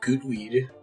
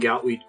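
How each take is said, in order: First: The first vowel rhymes with 'boot'. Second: The first vowel rhymes with 'cow'.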